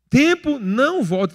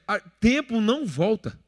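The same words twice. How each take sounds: First: Slow, louder, "Tempo" hit hard; emphatic repeat. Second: Said in the usual way. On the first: Shown as a demonstration. Preacher driving "Tempo não volta" home to the church, slow and loud.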